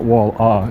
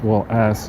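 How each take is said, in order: First: The name ends without an S sound. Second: The name ends with a clear S sound. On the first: The speaker calls it wrong. "It's not a silent S in that case. It's not Wall ah" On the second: The speaker calls it right. "It's Wall ass"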